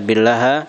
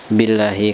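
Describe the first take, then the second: First: The word ends with an a vowel. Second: The word ends with an i vowel. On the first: The speaker calls it wrong. "Jadi tidak dibaca billaha" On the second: The speaker calls it right. "tapi dibaca apa? Billahi, karena bi adalah huruf jer"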